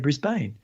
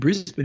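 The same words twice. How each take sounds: First: It is said the way a foreigner would. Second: It is said the usual local way. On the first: "a foreigner, and he might turn around and say" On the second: "instead of saying Brisbane"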